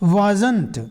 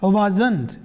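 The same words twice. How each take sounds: First: It is said as one short contracted word. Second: The same.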